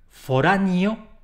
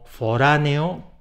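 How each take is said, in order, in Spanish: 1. La palabra termina en sonido 'io'. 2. La palabra termina en sonido 'eo'. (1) "a convertir esas terminaciones eo en io, a pronunciar" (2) "palabras esdrújulas que terminan en eo"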